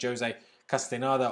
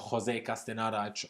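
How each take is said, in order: First: The name is said with an English accent. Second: The name is said with a Spanish accent.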